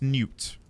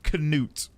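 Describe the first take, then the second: First: The name starts with no K sound. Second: The K sound is pronounced at the start. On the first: The speaker calls it right. "Newt is correct" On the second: The speaker calls it wrong. "it's not Canute"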